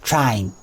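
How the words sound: The vowel glides from ah toward ee. "You probably say it like T R A E N"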